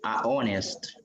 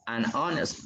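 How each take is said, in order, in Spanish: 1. El artículo es solo una vocal, sin 'n'. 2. El artículo termina en 'n', y se une con 'honest'.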